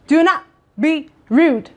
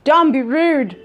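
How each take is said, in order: First: "not" drawn out and slow, each word separate; slow down and lean hard on "not"; stress on NOT. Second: Said in the usual way. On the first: Real, not acted. Vlogger warning her viewers, slowly stressing not.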